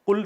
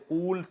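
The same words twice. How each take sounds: First: قل said short as qul; short-vowel qul for قل. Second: قول stretched as qool; long-vowel qool for قول. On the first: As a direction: keep the vowel brief in قل. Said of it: "قل سے بات بن رہی ہے". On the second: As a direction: lengthen the oo in قول. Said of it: "قول کہنے کی ضرورت". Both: Shown as a demonstration.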